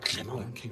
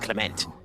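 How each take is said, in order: First: The name is said with a French pronunciation. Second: The name is said with an English pronunciation. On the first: "but them going Clement is just gorgeous" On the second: "to me, that Clement is Clement"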